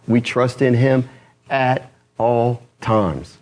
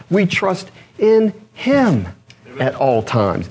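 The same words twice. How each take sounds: First: "at all times" one slow word at a time; stress on AT ALL TIMES. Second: "in him" drawn out slowly, HIM punched high; stress on HIM. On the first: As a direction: pause between "at", "all" and "times". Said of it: "And when do we trust him?". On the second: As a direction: land hard on "him", then drop for "at all times". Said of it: "Whom do we trust?". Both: Shown as a demonstration.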